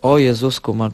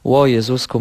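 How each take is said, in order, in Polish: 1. Zaczyna się od zwykłej samogłoski. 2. Przed samogłoską jest ślizg podobny do w.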